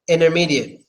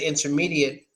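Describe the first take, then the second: First: The T sound is silent. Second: The T sound is clearly pronounced. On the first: "We wouldn't pronounce that T" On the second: "here in Russia, a lot of people say"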